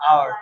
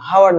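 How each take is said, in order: First: "আওয়ার" starting on the open vowel; silent H. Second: "হাওয়ার" with a sounded h; wrong pronunciation. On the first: Teacher corrects class, "আওয়ার" with silent h. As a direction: say hour as OW-er, "আওয়ার". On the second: Teacher shows class the mistake, "হাওয়ার" with audible h. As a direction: say hour as HOW-er, "হাওয়ার". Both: Shown as a demonstration. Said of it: "হাওয়ার না, এটা আওয়ার".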